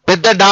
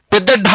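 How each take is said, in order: Both takes have the same delivery.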